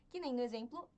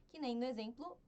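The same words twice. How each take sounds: The two takes are said the same way.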